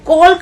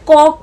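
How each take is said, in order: First: The L sound is pronounced. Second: The L sound is silent. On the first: The speaker calls it wrong. "कॉल्क नहीं पढ़ रहे हैं" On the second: The speaker calls it right. "कॉक पढ़ रहे हैं"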